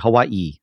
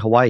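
First: It is said with a Hawaiian pronunciation. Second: It is said with a mainland pronunciation. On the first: "like normal Hawaiian people" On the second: "You don't say Hawaii"

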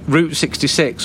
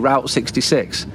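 First: Route is said to rhyme with boot. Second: Route is said to rhyme with out. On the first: The speaker calls it right. "it's clearly route, like Route 66" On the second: The speaker calls it wrong. "Or what do you say, Route 66?"

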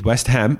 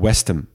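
First: The ending is a full 'ham'. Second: The ending is a reduced 'hm'. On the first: The speaker calls it wrong. "Dus West Ham is niet West Ham" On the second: The speaker calls it right. "maar Westham"

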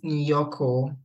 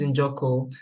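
First: The name starts with a y sound. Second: The name starts with a j sound. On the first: The speaker calls it wrong. "Everybody pronounces it Nyoko" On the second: The speaker calls it right. "my last name is Njoko"

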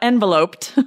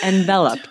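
First: The stress is on the first syllable. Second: The stress is on the second syllable. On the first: The speaker calls it wrong. "it's not enveloped" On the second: The speaker calls it right. "It's enveloped"

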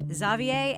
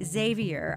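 First: The name is said with a non-American pronunciation. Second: The name is said with an American pronunciation. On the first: This is how the guest says it. "our guest Clay Jeter pronounces it Xavier" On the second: This is how the host usually says it. "while I pronounce Xavier's name Xavier ... my American pronunciation"

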